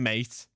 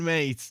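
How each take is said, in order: First: It is said in a hard, angry tone. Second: It is said in a warm, friendly tone. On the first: The speaker is annoyed and warning someone. "angry mate, mean angry mate" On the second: The speaker is being kind. "friendly mate"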